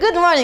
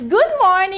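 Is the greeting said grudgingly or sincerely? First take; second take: grudgingly; sincerely. First: The greeting sounds grudging and insincere. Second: The greeting sounds warm and sincere.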